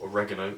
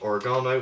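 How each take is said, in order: First: It is said with an American pronunciation. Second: It is said with a British pronunciation.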